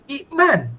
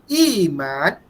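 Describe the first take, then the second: First: A glottal stop is heard before the m. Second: A long i runs straight into the m. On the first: This is the original form of the word. "asal dia" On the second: This is the form after the change. "Jadi iman"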